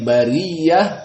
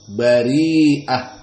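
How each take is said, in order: First: The middle has a doubled y sound. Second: The middle has a long vowel and glottal stop. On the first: This is the majority reading. "qiraah jumhur dengan ya" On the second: This is the reading of Warsh. "ibdal bi hamzah"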